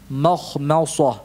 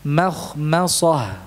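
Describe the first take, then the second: First: Slow Mokhmosah with a heavy, thick m; thick mim, wrong. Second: Slow Mokhmosah with a light, thin m; thin mim, correct. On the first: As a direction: darken the m of Mokhmosah, the mistake. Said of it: "Ini salah". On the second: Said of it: "Yang benar tetap tipis". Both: Shown as a demonstration.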